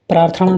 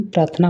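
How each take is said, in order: First: प्रार्थना mispronounced as "praarthaṇa"; retroflex ṇa. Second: प्रार्थना ending in a plain "na"; dental na. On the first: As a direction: curl the tongue on the last n of प्रार्थना. (प्रार्थना को "प्रार्थणा" बोलें) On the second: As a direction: keep the tongue forward on प्रार्थना's n. (प्रार्थना के अंत में सीधा "ना" बोलें) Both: Shown as a demonstration. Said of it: "अड़ा और ना संबंधित".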